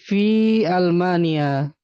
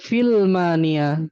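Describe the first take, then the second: First: The two words are separated by a glottal stop. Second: The two words run together without a break. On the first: The speaker calls it right. "ini Hamzah Qati ya, bukan alif lam ya" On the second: The speaker calls it wrong. "bukan filmania"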